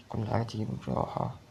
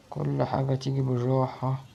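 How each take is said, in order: First: Quietly talks himself down, softer; low soothing mantra to himself; soft self-calming. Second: Slow, each word stretched; slow steady mantra; slow self-calming. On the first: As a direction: murmur it to keep calm. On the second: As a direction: drag out بالراحة slowly to calm down. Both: Real, not acted. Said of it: "طب بالراحة".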